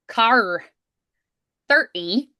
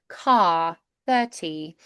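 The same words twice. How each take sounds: First: The R sounds are strong and clearly pronounced. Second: The R sounds are dropped and soft. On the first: "Irish car thirty, so more R's there" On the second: "with the British car thirty, we don't really do those R's"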